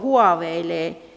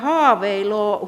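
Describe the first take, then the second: First: The first syllable has a ua diphthong. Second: The first syllable has a plain long a. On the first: "ensitavussa oleva diftongiutuminen huaveilee" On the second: "jälkitavussa tämä pitkä O, joka on E:n paikalla"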